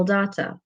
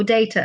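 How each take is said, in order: First: Said in the usual way. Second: "data" with DAY as the first syllable; alternative pronunciation. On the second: Shown as a demonstration. Teacher offers listeners their version of the word, "data" pronounced DAY-tuh. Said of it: "as some of you might say".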